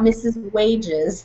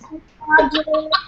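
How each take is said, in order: First: The surname's first vowel sounds like 'ay'. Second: The surname's first vowel sounds like 'ah'. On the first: The speaker calls it wrong. "We've all been saying it incorrectly" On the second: The speaker calls it right. "it's actually called missus Wadges"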